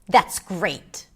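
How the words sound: The voice sounds harsh and angry.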